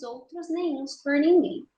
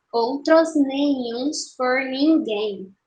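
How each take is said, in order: First: Said in the usual way. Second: "Outros nenhuns por ninguém" very slow, syllables separated; escansão silábica. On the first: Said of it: "Bom, primeiro verso". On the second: Shown as a demonstration. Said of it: "vamos fazer a escansão". ("Outros nenhuns por ninguém" bem devagar, separando as sílabas)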